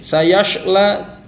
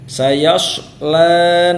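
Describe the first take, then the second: First: The s-sound is a hushing sh. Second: The s-sound is heavy and thick. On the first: The speaker calls it wrong. "Jangan juga seperti huruf shin" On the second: The speaker calls it right. "Sayasla shad ya. Dia tafkhim"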